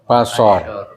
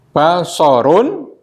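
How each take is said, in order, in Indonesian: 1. Kata itu berakhir dengan konsonan, akhirannya dihilangkan. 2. Kata itu berakhir dengan vokal dan n.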